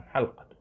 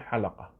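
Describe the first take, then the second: First: حلقة said as ḥalqa, lam silent; ḥal-qa, two syllables, no vowel after l; lam without a vowel. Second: حلقة said as ḥalaqa, open a after l; ḥa-la-qa, three even syllables; lam with a fatha. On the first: Teacher showing students the best form, ḥalqa with silent lam. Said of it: "الأفصح فيها تسكين اللام". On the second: Teacher showing the allowed variant, ḥalaqa with fatha on lam. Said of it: "ويصح أن تقول حلقة". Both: Shown as a demonstration.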